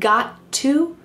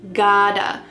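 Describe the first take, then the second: First: The two words are said separately in full. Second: The two words are blended into one reduced word. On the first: "Instead of saying I've got to" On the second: "we can reduce these words together"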